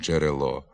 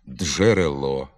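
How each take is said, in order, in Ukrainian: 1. Дж — це один злитий звук. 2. Дж вимовляється як два окремі звуки.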